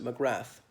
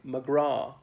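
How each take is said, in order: First: The name ends with a clear 'th' sound. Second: The name ends without a 'th' sound. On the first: The speaker calls it wrong. "in the United States people often pronounce it McGrath" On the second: The speaker calls it right. "It should be silent"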